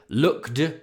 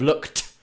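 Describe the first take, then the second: First: The word ends with a d sound. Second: The word ends with a t sound. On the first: The speaker calls it wrong. "If you accidentally say looked" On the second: The speaker calls it right. "instead of looked"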